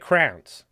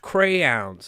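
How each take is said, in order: First: The word sounds like 'crowns', one syllable. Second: The word sounds like 'crayons', two syllables. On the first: The speaker calls it wrong. "I said crowns" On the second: The speaker calls it right. "It's pronounced crayons"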